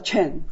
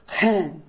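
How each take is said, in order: First: The name begins with a ch sound. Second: The name begins with an h sound. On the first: This is how Taiwanese people say the surname. "我们叫Chen" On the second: This is the Hebrew word meaning grace. "他发音叫Hen，意思就是Grace"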